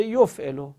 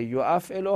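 First: "یفعلو" as yof'elo, first hamza gone; shortened "یفعلو", no catch after the y-sound; contracted form. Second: "یو افعلو" as yo-af'elo, hamza kept; uncontracted "یو افعلو", both syllables separate; original full form. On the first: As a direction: say "یفعلو" with yof as one syllable. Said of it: "حالا شده". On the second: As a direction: say "یو افعلو" with a catch between yo and af. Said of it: "اصلش بوده". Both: Shown as a demonstration.

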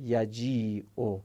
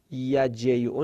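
First: یجیعو slowed, with a long "ii"; stretched long i. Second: یجیعو with "ey" in the middle; wrong glide reading. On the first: Teacher contrasts the vowel length for students, slow stretched "yajii-o" in یجیعو. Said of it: "از نظر کشیدگی صدا". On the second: Teacher repeats the reading we don't use, یجیعو as "yajey-o". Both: Shown as a demonstration.

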